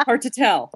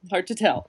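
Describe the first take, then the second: First: Laughing. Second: Said in the usual way. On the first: Real, not acted. Laughs while joking.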